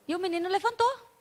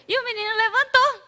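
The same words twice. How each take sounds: First: Said in the usual way. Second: "levantou" lifted high and louder; excited retelling. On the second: Shown as a demonstration. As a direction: burst out with the miracle. ("levantou" dito alto e empolgado) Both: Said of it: "repeated emphatically".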